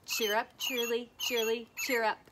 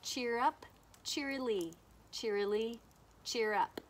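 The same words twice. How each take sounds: First: Louder, quicker robin chant with short gaps; faster robin call. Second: Robin's song in words, spaced out phrase by phrase; lightly imitated robin call. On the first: Teacher chanting together with the mystery bird, faster robin call. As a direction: chant it briskly and loudly to keep up with the bird. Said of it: "You have to say it faster". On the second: Teacher shows children what the bird says, lightly imitated robin call. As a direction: lilt it lightly like a robin, with pauses between calls. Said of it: "The bird says". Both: Shown as a demonstration.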